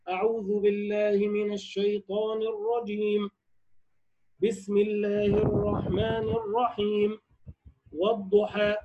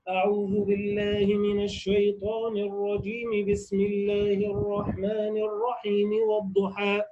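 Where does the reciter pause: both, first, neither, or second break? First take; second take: both; neither. First: Pauses come after both opening phrases. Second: All phrases run together without any pause. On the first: "قطع الجميع" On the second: "وصل الجميع"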